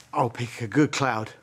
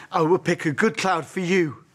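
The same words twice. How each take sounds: First: Said in the usual way. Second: Firmer promise, "will" said in full and stressed; emphatic promise. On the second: Acted. Father promises his daughter a cloud, emphatic on "will". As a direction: lean on "will", pledging it with more force.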